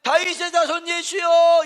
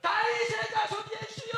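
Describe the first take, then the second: First: Higher, louder call to Jesus; the ordinary cry for mercy. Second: Very high, strained shout of 다윗의; desperate shout. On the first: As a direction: call out firmly, the first take. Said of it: "이랬더라면". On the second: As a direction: scream it out with everything. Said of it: "이렇게 소리를 질렀다는 거예요". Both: Shown as a demonstration.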